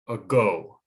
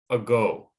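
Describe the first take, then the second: Both takes have the same delivery.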